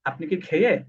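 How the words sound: The end of the last word is dropped. "তারা বলে"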